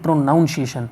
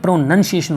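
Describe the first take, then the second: First: The second syllable sounds like 'noun'. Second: The second syllable sounds like 'nun'. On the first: The speaker calls it wrong. "ना कि प्रोनाउंसिएशन" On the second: The speaker calls it right. "प्रोनंसिएशन होता है"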